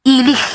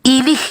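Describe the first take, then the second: The two takes are said the same way.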